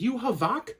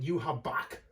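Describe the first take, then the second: First: The middle consonant is not a b sound. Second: The middle consonant is a b sound.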